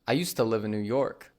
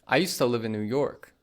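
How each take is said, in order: First: 'Used to' is blended into one word, 'usta'. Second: 'Used to' is blended into one word, 'usta'.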